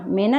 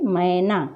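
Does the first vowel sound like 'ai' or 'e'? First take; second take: e; ai. First: The first vowel is a plain 'e' sound. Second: The first vowel is an 'ai' sound. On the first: The speaker calls it wrong. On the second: The speaker calls it right.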